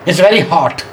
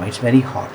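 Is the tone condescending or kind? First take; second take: condescending; kind. First: The tone is slightly condescending. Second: The tone is warm and kind. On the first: The speaker looks down on the listener. "The middle one was slightly condescending" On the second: The speaker cares about the listener. "the first tone was a very, very nice one"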